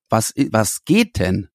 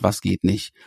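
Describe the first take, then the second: First: GEHT drawn out, rising and falling; slow, questioning lean on "geht"; stress on GEHT. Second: Said in the usual way. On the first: Acted. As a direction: linger on GEHT in an open question.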